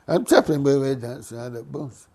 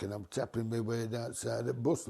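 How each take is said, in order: First: "I'm tapping my way down side of the bus" said louder and insistent, stress on "I'm"; emphatic repeat. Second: Said in the usual way. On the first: Real, not acted. Swearing to friends it's true, emphatic and louder.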